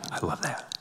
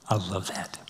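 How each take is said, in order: First: "I love that" breathed almost silently, ending in a lift; near whisper. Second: "I love that" said softer, lingering; soft and moved. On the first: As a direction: barely voice "I love that". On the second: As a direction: savour "I love that" gently. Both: Real, not acted.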